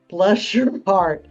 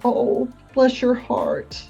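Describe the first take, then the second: First: It sounds exasperated and mocking. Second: It sounds warm and sympathetic. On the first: The person did something foolish. "as in, "What were you thinking?"" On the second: The speaker feels for the person's loss. "It was that empathy"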